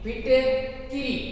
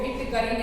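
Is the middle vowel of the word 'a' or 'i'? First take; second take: i; a. First: The middle syllable has the vowel 'i'. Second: The middle syllable has the vowel 'a'. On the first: The speaker calls it right. "फिटकिरी शब्द शुद्ध है" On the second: The speaker calls it wrong. "फिटकरी नहीं होता"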